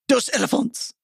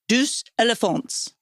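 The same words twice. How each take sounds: First: It is said with a French accent. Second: It is said with an English accent. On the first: The speaker calls it right. "I gotta say it like a French person" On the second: The speaker calls it wrong. "Am I saying that right"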